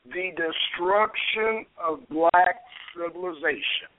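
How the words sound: It is said in a put-on dramatic voice.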